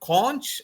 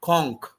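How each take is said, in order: First: It is said with a British English pronunciation. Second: It is said with an American English pronunciation. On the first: "in British English" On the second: "in American English we call"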